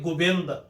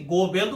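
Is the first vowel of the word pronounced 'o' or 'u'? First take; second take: u; o. First: The first vowel is pronounced as 'u'. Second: The first vowel is pronounced as 'o'. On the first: The speaker calls it right. "ਭਾਵ ਕਿ ਔਂਕੜ ਦੇ ਨਾਲ ਉਚਾਰਨ ਹੋਏਗਾ" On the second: The speaker calls it wrong. "ਗੋਬਿੰਦ ਉਚਾਰਨ ਨਹੀਂ ਕਰਾਂਗੇ"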